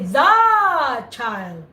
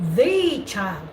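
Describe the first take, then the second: First: The word 'the' has a short vowel. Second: The word 'the' has a long vowel. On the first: The speaker calls it wrong. "You don't say" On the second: The speaker calls it right. "you are prolonging it"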